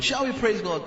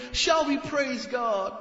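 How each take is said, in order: First: Mock pious invitation. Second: Higher, slow showy invitation; hammed-up stage host asking the crowd; mock worship leader. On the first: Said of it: "that's all stage drama". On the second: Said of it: "Worship leader".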